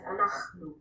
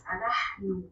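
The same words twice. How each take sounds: First: אנחנו with a rough throaty ch sound; modern street Hebrew ch. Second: אנחנו with a soft breathy h in the middle; old Hebrew h sound. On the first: Teacher shows how people in the streets say it, throaty ch. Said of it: "or mostly as". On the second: Teacher shows the written Hebrew form, soft h. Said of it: "in written Hebrew and in Old Hebrew". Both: Shown as a demonstration.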